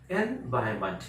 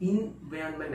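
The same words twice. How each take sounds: First: "एनवायरनमेंट" as "en-VAI-ment", starting on en; silent r. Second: "एनवायरनमेंट" run together as "in-vyan-ment"; wrong pronunciation. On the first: Teacher correcting the common error, silent r. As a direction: say "एनवायरनमेंट" clearly without its r. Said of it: "आर का pronunciation हो ही नहीं रहा". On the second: Teacher showing what not to say, wrong pronunciation. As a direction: start "एनवायरनमेंट" on "in", blurring the middle. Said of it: "नहीं बोलेंगे". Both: Shown as a demonstration.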